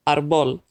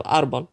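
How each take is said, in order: First: Árbol mis-stressed as ar-BOL; Árbol said ar-BOL, second syllable stressed; stress on last syllable. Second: Árbol stressed as AR-bol; árbol said AR-bol, second syllable unstressed; stress on first syllable. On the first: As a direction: put the weight on the final syllable of Árbol. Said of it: "otherwise the last syllable would be emphasized". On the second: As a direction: put the weight on the opening syllable of árbol. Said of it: "instead of árbol". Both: Shown as a demonstration.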